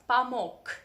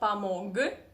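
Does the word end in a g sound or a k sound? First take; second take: k; g. First: The final consonant is a voiceless k. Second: The final consonant is a voiced g. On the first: The speaker calls it right. "you need to pronounce it as k" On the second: The speaker calls it wrong. "not помог"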